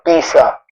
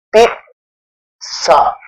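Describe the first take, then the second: First: The middle consonant is a plain z sound. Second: The middle consonant is a ts sound. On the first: The speaker calls it wrong. "hindi po uh, sinasabi pizza" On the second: The speaker calls it right. "T S, parang ganun po yung pizza"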